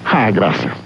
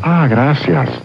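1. El agradecimiento suena frío y disgustado. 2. El agradecimiento suena cálido y apreciativo. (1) "Preguntarán, ¿qué le pasa?" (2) "Dirán, lo aprecia, le voy a regalar algo más"

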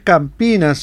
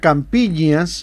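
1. La consonante del medio es una n simple. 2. La consonante del medio es un sonido ñ. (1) "es Campinas el nombre correcto" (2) "yo creo que lo pronunciaba mal a veces"

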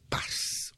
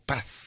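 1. Se dice con un acento español no peninsular. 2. Se dice con un acento castellano peninsular central.

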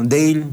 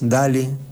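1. El nombre se dice con pronunciación inglesa. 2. El nombre se dice con pronunciación española. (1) "sería en inglés" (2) "diríamos nosotros"

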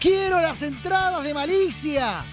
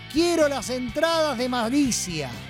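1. Se dice con una voz especial, fingida. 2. Se dice con su voz normal de hablar.

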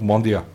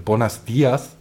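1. Der Gruß wird stark verkürzt und verschluckt gesprochen. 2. Der Gruß wird vollständig gesprochen. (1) "du hörst nur noch Bon dia" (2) "de Buenos Dias total verschlucken"

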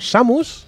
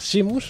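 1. La primera vocal suena como 'a'. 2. La primera vocal suena como 'i'. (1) "se pronuncia Samus" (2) "no se pronuncia Simus"

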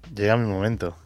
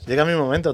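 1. Se dice con un tono plano y triste. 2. Se dice con un tono vivo y alegre. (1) "Dicho así, no le puedo decir a la gente que se anime. ... suena un poco a triste" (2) "Ya en plan, llega mi momento, tronco, que es viernes"

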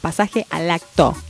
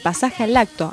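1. Cada palabra se dice con claridad y bien separada. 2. Las palabras están unidas, y al acto se funde. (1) "lo voy a decir muy claro" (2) "Yo entendí lacto"

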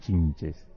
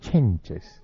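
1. La primera vocal suena como 'i'. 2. La primera vocal suena como 'e'. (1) "No decía chinches" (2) "decía chenches"

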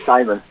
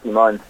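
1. La sílaba tónica es la primera. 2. La sílaba tónica es la última. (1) "mi nombre es Simon" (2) "acá soy Simón"

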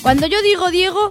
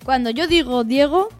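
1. Se dice muy rápido. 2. Se dice muy despacio. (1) "una súper rápida" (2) "Una muy lenta"

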